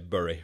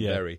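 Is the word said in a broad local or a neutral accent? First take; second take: broad local; neutral. First: It has a broad northern vowel. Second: It has a neutral standard vowel. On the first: The speaker is relaxed after drinking. "After a bottle of red wine, I probably would say Bury" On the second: The speaker is guarding the voice. "rather than Bury"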